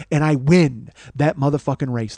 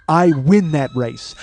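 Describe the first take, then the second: First: Said in the usual way. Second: "I win that race" drawn out word by word; triumphant slow stress. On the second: Real, not acted. Storyteller repeats his win to the listeners, slow and triumphant. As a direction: declare "I win that race" slowly, savouring WIN.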